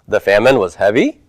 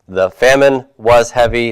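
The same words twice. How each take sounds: First: The voice rises at the end. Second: The voice falls at the end. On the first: It asks a yes-no question. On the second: It states a fact.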